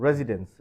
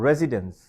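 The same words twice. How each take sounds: No difference in how they are said.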